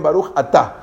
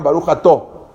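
First: Baruch Atá ending in an open, clear a. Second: Baruch Ató ending in a rounded o. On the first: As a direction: say Atá with a bright open a at the end, stress on tá. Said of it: "los sefaradim no sabían pronunciarla, entonces dijeron". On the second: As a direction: say Ató with a closed, rounded o at the end, stress on tó. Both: Shown as a demonstration.

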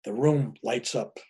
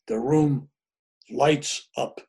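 First: Said in the usual way. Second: "room", "lights up" set apart by pauses; emphatic restatement. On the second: Real, not acted. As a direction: slowly spell out "the room lights up", pausing after "room". Restated after "I mean" for emphasis.

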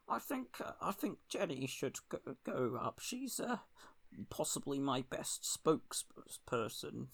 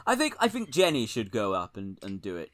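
First: Second try at a hesitant, hushed politician; Keir Starmer. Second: Failed politician impression, sinking lower; lightly voiced politician, sounding like David Cameron; Keir Starmer. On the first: Acted. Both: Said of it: "That's not a good Keir impression".

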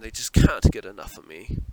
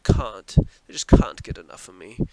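First: Said in the usual way. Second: "can't" said the British way, with a broad "ah"; British accent. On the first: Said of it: "That's how they say it". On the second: Shown as a demonstration. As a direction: try a British "can't", vowel as in "father". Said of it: "That's how they say it, right?".

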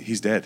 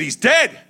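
First: Said in the usual way. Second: High, loud screamed news; panicked scream. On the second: Retold or imitated. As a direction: scream it at mom, desperate. Telling mother father died.

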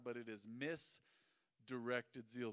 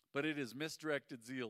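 First: Half the usual speed, each word of "misdirected zeal" spelled out; slow deliberate sermon punchline; slow emphatic. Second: Said in the usual way. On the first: Shown as a demonstration. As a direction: lay out misdirected zeal slowly for the crowd to take in. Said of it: "The word misdirected means". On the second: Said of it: "first reading of the verse".

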